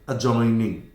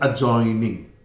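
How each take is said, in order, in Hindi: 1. 'j' से पहले 'd' की ध्वनि साइलेंट होती है। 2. 'j' से पहले 'd' की ध्वनि साइलेंट होती है।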